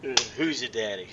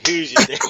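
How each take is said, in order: First: Mock low tease. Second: Pitched-up, louder "Who's your daddy?" with a rising "your"; high playful taunt. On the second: Pretend. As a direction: toss it up high as a cocky taunt. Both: Teasing about nickname daddy.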